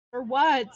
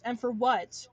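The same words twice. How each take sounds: First: Louder, exasperated demand; fed-up emphatic repeat; louder indignant repeat. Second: Said in the usual way. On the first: Real, not acted. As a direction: hit it harder the second time.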